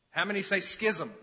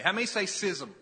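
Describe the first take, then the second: First: Schism said skizzum, hard sk. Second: Schism said sizzum, soft s. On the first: Preacher polling the church, schism said skizzum. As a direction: say schism with sk, like skip. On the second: Preacher polling the church, schism said sizzum. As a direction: say schism with a plain s sound. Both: Shown as a demonstration. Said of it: "Is it schism or schism".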